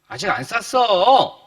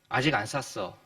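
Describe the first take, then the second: First: It is said with some emotion. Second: It is said calmly, without emotion.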